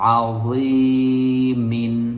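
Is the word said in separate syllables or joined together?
joined. The syllables are joined smoothly without breaks. "যদি আপনি এটাকে একসাথে পড়েন এভাবে"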